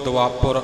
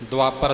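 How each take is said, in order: First: The syllable after p has a short 'u' vowel. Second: The syllable after p has a plain 'a' vowel. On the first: The speaker calls it right. "ਪੱਪੇ ਦੇ ਔਂਕੜ ਵੱਲ ਖਿਆਲ ਰੱਖਣਾ ਜੀ" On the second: The speaker calls it wrong. "ਦੁਆਪਰ ਸਿੱਧਾ ਨਹੀਂ ਬੋਲਣਾ"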